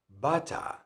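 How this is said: It is said in a British accent.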